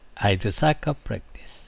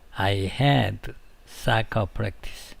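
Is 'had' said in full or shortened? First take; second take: shortened; full. First: The word 'had' shrinks to a 'd' sound. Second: The word 'had' is said in full. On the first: The speaker calls it right. "거의 D처럼 들립니다" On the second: The speaker calls it wrong. "이렇게 안 하고요"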